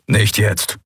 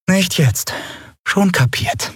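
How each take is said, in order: First: Short, understated growled refusal with weight on nicht; a touch of a growl on "Nicht jetzt"; mild growl. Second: Higher mocking repeat of "Nicht jetzt", falling on nicht; mocking echo. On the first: Acted. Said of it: "knurrte Kero". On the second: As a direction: parrot him back with a sulky tone. Lien mimics Kero's warning.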